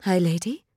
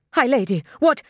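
First: Tentative question with a rising end; hesitant, questioning address; cautious venture. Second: Higher, louder, taken aback; startled protest. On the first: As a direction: venture it carefully, unsure of the reaction. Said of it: "Tekawa ventured, cautiously". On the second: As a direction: blurt it out in alarmed confusion. Startled protest while being pulled away. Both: A narrator's reading.

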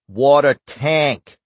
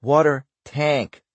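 First: Put-on drawn-out Boston accent on "Water tank"; slow, heavy Boston drawl. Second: Put-on Cordero echoing "water tank" slowly in Boston accent; drawn-out Boston "water tank". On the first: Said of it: "drawing out the words in his heavy Boston accent". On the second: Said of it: "Excuse me". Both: A narrator's reading.

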